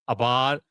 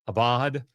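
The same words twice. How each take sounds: Both takes have the same delivery.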